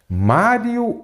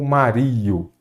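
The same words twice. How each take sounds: First: "Mário" stressed on the opening MÁ; stress on first syllable. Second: "Mario" wrongly stressed as ma-RI-o; stress shifted to I. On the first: Teacher checks his own name's stressed syllable, first-syllable stress on "Mário". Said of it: "Meu nome é mestre Mário ou Mario?". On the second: Teacher shows his name without the accent mark, "Mario" said ma-RI-o. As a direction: say "Mario" with a long, strong RI in the middle. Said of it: "Mário. Então eu acentuo as paroxítonas". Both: Shown as a demonstration.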